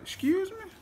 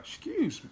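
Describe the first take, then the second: First: It sounds shocked, reacting to a slap. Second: It sounds admiring, reacting to a fine girl.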